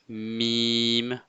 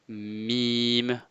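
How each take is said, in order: The two takes are said the same way.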